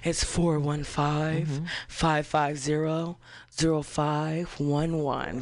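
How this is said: It is said in a quiet voice.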